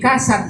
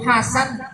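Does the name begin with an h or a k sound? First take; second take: k; h. First: The name begins with a k sound. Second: The name begins with an h sound. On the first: The speaker calls it wrong. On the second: The speaker calls it right.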